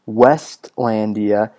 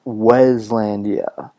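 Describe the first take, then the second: First: A t sound is heard before the l. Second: No t sound is heard before the l. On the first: The speaker calls it wrong. "It's not Westlandia" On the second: The speaker calls it right. "it's just Weslandia"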